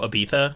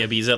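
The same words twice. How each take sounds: First: The middle consonant is a th sound. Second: The middle consonant is a z sound. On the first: This is how British speakers say it. "how the British pronounce Ibiza. They go Ibiza ... they do it with ... with like the lith" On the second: This is how Americans say it. "but we say Ibiza"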